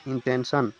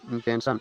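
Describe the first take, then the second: First: इंटेंशन sounded out in three distinct syllables. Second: Said in the usual way. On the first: Shown as a demonstration. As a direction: separate each syllable of इंटेंशन. (इंटेंशन को तीन हिस्सों में तोड़कर बोलें) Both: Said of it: "जैसे आप उसका उच्चारण कीजिएगा".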